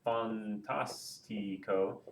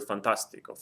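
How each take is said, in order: First: Fantastico slowly split as fan-tas-ti-co; fantastico, each syllable drawn out separately. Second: Said in the usual way. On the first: Shown as a demonstration. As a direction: break fantastico into four slow, softer beats. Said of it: "break it down into its various syllables". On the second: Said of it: "take this word and break it down".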